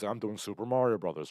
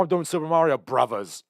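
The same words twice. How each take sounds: First: Said in the usual way. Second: Higher, louder mock British accent; Bob Hoskins. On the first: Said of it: "or I'm sorry, he's like". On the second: British actor telling his kids about the role, imitated British accent. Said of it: "I'm not gonna do the accent".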